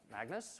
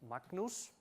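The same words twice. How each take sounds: First: The name is said with English pronunciation. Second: The name is said with Icelandic pronunciation.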